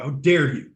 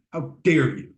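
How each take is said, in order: First: Said in the usual way. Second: Mock outrage. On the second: Shown as a demonstration.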